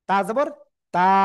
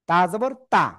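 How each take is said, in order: First: The last vowel is drawn out long. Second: The last vowel is kept short. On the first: The speaker calls it wrong. "ভুল" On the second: The speaker calls it right. "টেনে পড়া যাবে না"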